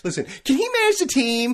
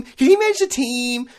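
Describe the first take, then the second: First: Mock defence. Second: Higher, louder, leaning on he; mock insistence. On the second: Mocking A-Rod fans, can he manage the team, loud insisting. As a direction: push the question again, louder and higher.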